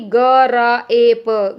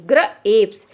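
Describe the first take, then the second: First: "ग र ए प" as slow, separate letter sounds; wrong split reading. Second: "ग्र एप्स" in two chunks, g-r run together; correct blended reading. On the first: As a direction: sound out "ग र ए प" one long sound at a time. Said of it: "ऐसे नहीं". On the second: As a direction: blend "ग्र" into one beat, then add "एप्स". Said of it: "बच्चा उसको क्या पढ़ेगा". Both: Shown as a demonstration.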